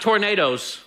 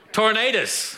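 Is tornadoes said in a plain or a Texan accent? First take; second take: plain; Texan. First: The word is said in a plain, standard accent. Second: The word is said in a Texan accent. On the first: The speaker calls it wrong. "Not tornadoes" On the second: The speaker calls it right. "you got to say it right. There's an A in there somewhere"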